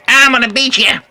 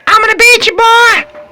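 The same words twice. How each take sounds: First: Said in the usual way. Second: High, loud playful taunt; mock threat shout. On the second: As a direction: yell it like a cartoon villain.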